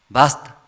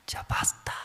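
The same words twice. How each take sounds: First: "basta" pushed out louder; louder outburst. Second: Whispered "Ya basta", barely breathed out; inner whisper. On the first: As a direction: let "basta" burst out. Husband's patience snapping. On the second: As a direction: say "Ya basta" only to yourself, in a whisper. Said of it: "sí, adentro". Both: Retold or imitated.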